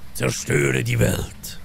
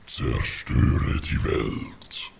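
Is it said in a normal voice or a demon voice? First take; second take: normal; demon. First: It is said in a normal voice. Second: It is said in a put-on demon voice.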